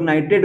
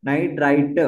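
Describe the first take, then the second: First: नाइट्रेट ending in an "ayt" sound, as in nitrate; नाइट्रेट, the "-ate" ending; commonly confused word. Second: नाइट्राइट ending in an "ite" sound, as in nitrite; नाइट्राइट, the "-ite" ending made clear; corrected term. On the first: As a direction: say नाइट्रेट with the last syllable like "rate". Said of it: "कुछ लोग नाइट्रेट बोलते हैं". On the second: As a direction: say नाइट्राइट with the last syllable like "right". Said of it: "ये नाइट्राइट है". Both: Shown as a demonstration.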